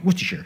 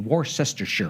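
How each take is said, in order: First: Several written syllables are dropped, making it shorter. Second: Every written syllable of the word is pronounced. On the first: The speaker calls it right. "in England, of course, they're called" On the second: The speaker calls it wrong. "if you pronounced it the way it's written"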